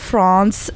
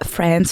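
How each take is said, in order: First: It is said with a French accent. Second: It is said with an American accent.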